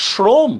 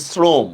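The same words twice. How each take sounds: First: শ্রম opened on a palatal sh; sh-sound demo. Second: শ্রম opened on a thin hissed s; s-sound demo. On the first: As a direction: say শ্রম with a hushing 'sh' at the start, "shrom". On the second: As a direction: say শ্রম with a dental 's' at the start, "srom". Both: Shown as a demonstration. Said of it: "উচ্চারণ আমরা কি করতেছি".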